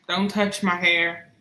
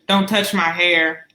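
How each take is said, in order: First: It is said at normal, softer volume. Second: It is said loudly, with more force.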